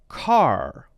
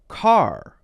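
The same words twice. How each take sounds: First: The final r is clearly pronounced. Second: The final r is clearly pronounced.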